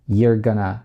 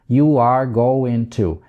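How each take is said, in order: First: The words are contracted and reduced together. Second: The words are said in full, unreduced.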